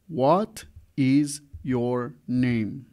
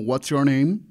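First: Every word is said fully and separately. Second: What and is merge into one contracted word.

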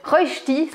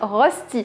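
First: The word has a Swiss-German pronunciation. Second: The word has a French pronunciation. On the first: "c'est bien comme ça que ça se prononce" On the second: "je sais qu'en France, vous dites Rösti"

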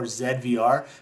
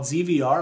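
First: The name is said the Canadian way. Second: The name is said the usual American way.

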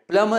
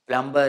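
First: The B sound is silent. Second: The B sound is pronounced. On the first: The speaker calls it right. "is correct" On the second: The speaker calls it wrong. "is incorrect"

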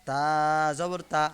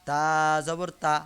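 No difference in how they are said.

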